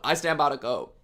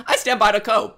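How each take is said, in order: First: Said in the usual way. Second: Louder, higher proud claim; defiant mock pride; proud declaration. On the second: Shown as a demonstration. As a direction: announce it defiantly.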